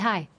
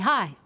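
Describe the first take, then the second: First: It sounds relaxed, warm and friendly. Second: It sounds strong, severe and serious.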